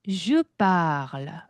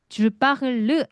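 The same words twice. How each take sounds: First: The vowel in parle is drawn out long. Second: The vowel in parle is short and clipped. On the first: The speaker calls it right. "바가 길어지죠" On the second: The speaker calls it wrong. "Je parle 아니고"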